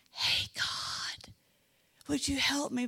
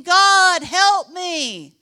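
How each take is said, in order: First: Hushed, breathy whisper to God. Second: Loud, high desperate cry to God; crying aloud. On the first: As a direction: whisper the plea so no one hears. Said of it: "David should have been saying". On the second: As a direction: call out to God with everything. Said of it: "But no, he was saying". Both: Pretend.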